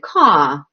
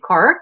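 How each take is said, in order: First: The final r sound is dropped. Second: The final r sound is pronounced. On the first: "They don't pronounce the letter R. So they'll say" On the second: "people here say car"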